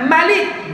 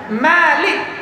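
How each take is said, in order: First: The first vowel is kept short. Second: The first vowel is held long. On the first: It gives the stronger meaning. "yang memendekkan mimnya" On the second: It earns more reward. "yang membaca mimnya panjang"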